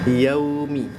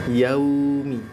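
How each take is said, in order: Both takes have the same delivery.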